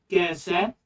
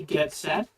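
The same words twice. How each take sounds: First: The T sounds are left out. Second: The T sounds are clearly pronounced. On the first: "He doesn't use the T sound" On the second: "he doesn't say"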